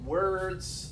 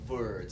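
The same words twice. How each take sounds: First: The word starts with a rounded W sound. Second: The word starts with a buzzing V sound. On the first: The speaker calls it right. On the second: The speaker calls it wrong.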